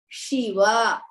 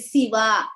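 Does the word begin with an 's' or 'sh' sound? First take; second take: sh; s. First: The word begins with an 'sh' sound. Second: The word begins with an 's' sound. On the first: The speaker calls it right. "It should be sha, shankara, shiva" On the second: The speaker calls it wrong. "You should not say siva. Siva is wrong"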